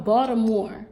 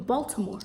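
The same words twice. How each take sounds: First: "Baltimore" with the T dropped, like "Bawdamore". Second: "Baltimore" with a crisp T, "Bol-ti-more"; T put in. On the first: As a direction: say "Baltimore" local-style, swallowing the T. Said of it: "I don't always remember to put the T". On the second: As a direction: sound the T fully in "Baltimore". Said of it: "to put the T". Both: Shown as a demonstration.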